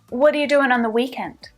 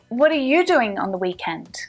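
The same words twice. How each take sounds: First: The stress falls on the word weekend. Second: The stress falls on the word you. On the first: The question focuses on the time, the weekend. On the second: The question is aimed at one particular person.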